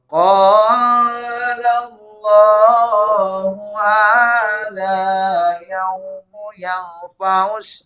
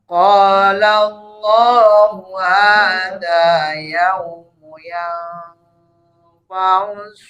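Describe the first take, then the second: First: The hadza vowel is drawn out; the nasal is short. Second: The hadza vowel is short; the nasal is held long. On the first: The speaker calls it wrong. "Jadi jangan sampai begini nih. ... Ini kebalik ya" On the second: The speaker calls it right. "Maka matobinya diayun aja, pendek ritmenya"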